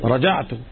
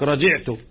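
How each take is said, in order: First: The vowel after the 'j' is 'a'. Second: The vowel after the 'j' is 'i'. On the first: The speaker calls it right. "لا" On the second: The speaker calls it wrong. "من الأخطاء الشائعة يقول لك رجعت بكسر الجيم"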